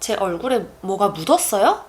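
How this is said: The emphasis is on the final verb. The speaker asks whether anything is on the face. "If I place the emphasis on 묻었어요?"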